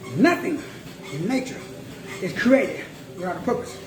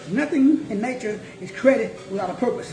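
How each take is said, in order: First: It is said slowly. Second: It is said at normal speed.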